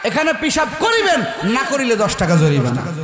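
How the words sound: The pause comes before 'না'.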